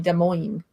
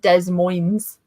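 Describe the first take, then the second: First: The S sounds are silent. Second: The S sounds are pronounced. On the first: The speaker calls it right. "You say Des Moines" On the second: The speaker calls it wrong. "It's not Des Moines"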